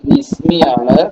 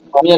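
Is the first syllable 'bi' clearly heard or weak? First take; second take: clear; weak. First: The first syllable 'bi' is clearly heard. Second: The first syllable 'bi' is weak and unclear. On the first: The speaker calls it right. "ബി കേൾക്കണം" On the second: The speaker calls it wrong. "ബിസ്മി അല്ല"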